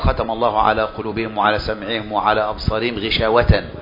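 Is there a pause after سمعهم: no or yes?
no. It runs on without a pause after سمعهم. The covering applies to hearts, hearing and sight together. The speaker calls it wrong. "لو إحنا اعتبرنا الغشاوة عائدة على الجميع"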